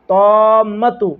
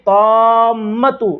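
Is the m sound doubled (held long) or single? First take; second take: doubled; doubled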